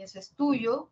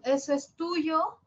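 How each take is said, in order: First: "eso es tuyo" with much less lift on "tuyo"; statement intonation. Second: "eso es tuyo" slow, rising high on "tuyo"; question intonation. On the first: Teacher contrasts with the question, declarative tune. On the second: Teacher shows distinctive intonation, slow rising question. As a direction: ask it, stretching "tuyo" upward. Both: Shown as a demonstration. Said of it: "la diferencia está en la entonación".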